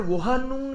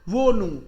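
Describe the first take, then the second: First: An h sound is heard in the middle. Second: No h sound is heard in the middle. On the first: The speaker calls it wrong. "वोहनू नहीं बोलेंगे इसको" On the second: The speaker calls it right. "यहां भी साइलेंट है"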